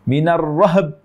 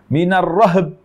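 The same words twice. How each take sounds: Both takes have the same delivery.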